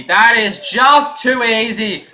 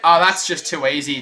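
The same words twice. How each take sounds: First: Louder, slow emphatic commentary call; excited. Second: Said in the usual way. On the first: Acted. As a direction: lean into it, savour the play. Repeats line, second louder.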